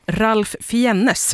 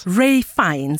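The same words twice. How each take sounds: First: "Ralph Fiennes" said as spelt, Ralf Fee-en-nes; unsure pronunciation. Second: "Ray Fiennes" repeated as Rayf Fines; corrected pronunciation. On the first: Real, not acted. Host unsure of actor's name, "Ralph Fiennes" said as spelt. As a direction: sound out "Ralph Fiennes" letter by letter, Swedish-style. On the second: Shown as a demonstration. Host echoing guest's correction, "Ray Fiennes" said Rayf Fines. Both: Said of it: "Jag vet inte hur man uttalar det".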